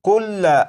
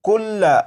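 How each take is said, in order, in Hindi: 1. यह शब्द अंतिम 'a' स्वर पर खत्म होता है। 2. यह शब्द अंतिम 'a' स्वर पर खत्म होता है।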